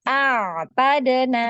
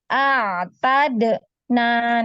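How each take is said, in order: First: The word flows without any pause. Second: The word is broken up by pauses. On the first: The speaker calls it right. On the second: The speaker calls it wrong. "enggak boleh dijeda seperti itu ya"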